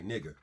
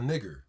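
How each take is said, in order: First: The word ends with a short 'a' sound. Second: The word ends with a clear 'er' sound. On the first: It is the friendly form. "the friendly way" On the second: It is the harsher, non-friendly form. "I say it in that way, not like the friendly way"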